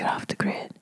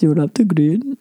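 First: It is said in a whispered Nigerian accent. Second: It is said without a Nigerian accent. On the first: The speaker calls it right. "He whispered it to me like that" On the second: The speaker calls it wrong. "That wasn't a Nigerian accent"

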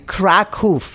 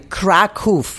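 First: The name is said with Polish pronunciation. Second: The name is said with Polish pronunciation.

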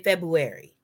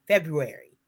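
First: The r sound after the b is dropped. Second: The r sound after the b is pronounced. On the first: The speaker calls it wrong. "Don't say February, because that's not what it is" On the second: The speaker calls it right. "it's pronounced February. Make sure you pronounce all of the letters"

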